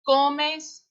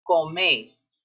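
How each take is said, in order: First: The stress is on the first syllable. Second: The stress is on the last syllable. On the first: "the only difference in sound between these two ... is where the emphasis is" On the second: "This one gets emphasized on the end because it's accented"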